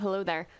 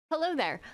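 First: Said in the usual way. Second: A light, higher mock of the famous hello there; tossing off the movie line with a playful lift; Obi-Wan greeting. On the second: Reacting to Kenobi, he lightly quotes Obi-Wan's greeting. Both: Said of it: "I should have started off with hello there".

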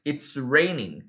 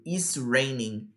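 First: "it's raining" with a clear ts at the start; contracted "it's". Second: Slow, low "is raining" with no t before the s; learner's missing "it". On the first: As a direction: model "it's raining", keeping the t in "it's". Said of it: "vira it's". ("it's raining" com o t de "it's" bem marcado) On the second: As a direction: show the error "is raining", dropping "it". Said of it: "A pessoa simplesmente esquece do it". ("is raining" devagar, sem o "it") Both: Shown as a demonstration.

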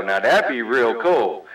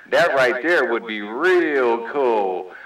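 First: Said in the usual way. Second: "real cool" stretched out slowly; slow, savoring stress on "real cool"; emphatic drawl. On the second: Real, not acted. Repeats it drawn out for emphasis.

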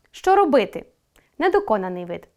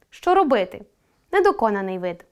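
Both takes have the same delivery.

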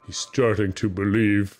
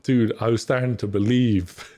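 First: Matrix movie quote. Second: Said in the usual way. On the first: Retold or imitated. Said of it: "Is that Matrix?". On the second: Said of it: "what's that meme?".

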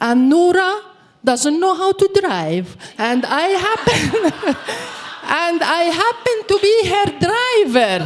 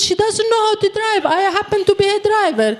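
First: Higher, slightly amused explaining to the soldier; mock-innocent, lay it out for the soldier; explaining to the soldier why she drives the dog; deadpan explanation. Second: Higher, faster, pushing the point home; mock-innocent insistence, quicker and higher; insisting to the soldier that the dog can't drive; insistent repeat.

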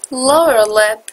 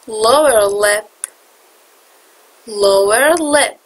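First: Said in the usual way. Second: Slow, careful Lower lip. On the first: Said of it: "repeated teaching take". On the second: Shown as a demonstration. Teacher slowing Lower lip down so students can copy it. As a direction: Lower lip stretched out slowly, syllable by syllable. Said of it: "slowed repeat for students".

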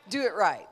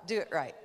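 First: Louder urging push on "do it right"; loud insistent "do it right"; emphatic. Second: Said in the usual way. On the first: Retold or imitated. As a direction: belt "do it right" as a command. God's voice urging, emphatic repeat.

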